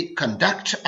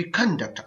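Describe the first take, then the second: First: conduct with weight on the second syllable, con-DUCT; verb stress on conduct. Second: conduct with weight on the first syllable, CON-duct; noun stress on conduct. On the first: Teacher contrasting two forms of one word, conduct stressed on its second syllable. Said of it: "जब बतौर verb इस्तेमाल होता है". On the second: Teacher contrasting two forms of one word, conduct stressed on its first syllable. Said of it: "जब ये noun बतौर noun इस्तेमाल". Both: Shown as a demonstration.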